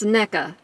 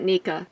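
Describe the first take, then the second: First: The first syllable does not sound like knee. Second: The first syllable sounds like the word knee. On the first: The speaker calls it right. "So it's NECA, right?" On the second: The speaker calls it wrong. "Not Nika"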